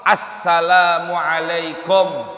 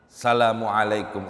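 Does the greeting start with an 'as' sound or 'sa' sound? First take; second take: as; sa. First: The greeting starts with the sound 'as'. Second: The greeting starts directly with 'sa'. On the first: The speaker calls it right. "kita pilih pendapatnya Imam Nawawi" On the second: The speaker calls it wrong. "Ada enggak alif lamnya? Enggak ada. Tanwinnya enggak ada, enggak sah"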